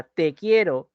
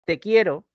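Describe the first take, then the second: First: "te quiero" with the accent on "te"; stress on te. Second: Said in the usual way. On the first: Shown as a demonstration. Teacher contrasting the drink with the feeling, stress on "te". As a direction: lean on "te" as a separate stressed word. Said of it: "el T con tilde". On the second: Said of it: "ese T sin tilde".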